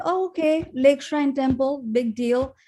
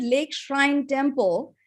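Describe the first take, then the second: First: Higher-pitched shrug of a big deal; mock dismissive. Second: Said in the usual way. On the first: Recalling her first visit, mildly unimpressed and offhand. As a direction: brush it off as nothing special. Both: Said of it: "And to me, it was like".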